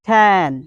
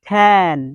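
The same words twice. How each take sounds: Both takes have the same delivery.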